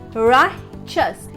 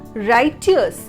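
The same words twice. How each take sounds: First: The middle consonant is a 'ch' sound. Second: The middle consonant is a plain 't' sound. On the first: The speaker calls it right. "Here the T is replaced with C H, ch" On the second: The speaker calls it wrong. "R I G H T, right? E O U S, U S, righteous"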